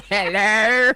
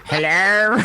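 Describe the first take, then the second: First: Hello broken up by laughter; laughing hello. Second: Slow, drawn-out hello; Mister Bean voice. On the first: Real, not acted. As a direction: giggle through the greeting. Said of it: "R A nine laugh is the best". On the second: Acted. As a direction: stretch the greeting like Mister Bean. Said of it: "channel Mister Bean".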